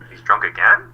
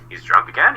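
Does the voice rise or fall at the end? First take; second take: fall; rise. First: It is said as a statement, falling at the end. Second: It is said as a question, rising at the end. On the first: The speaker is remarking that he is drunk once more. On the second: The speaker is asking whether he is drunk.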